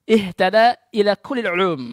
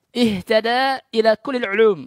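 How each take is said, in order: First: Louder, ringing recitation of the Arabic maxim. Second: Louder and slow, each word of the maxim weighed; slow emphatic recitation. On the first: Preacher quoting Imam Syafi'i to students, loud declaiming. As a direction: proclaim it like a quoted scholar's saying. Quoted saying, first take. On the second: Preacher repeating the maxim for attention, slow and loud. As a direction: lean on every word so students take it in. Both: Retold or imitated.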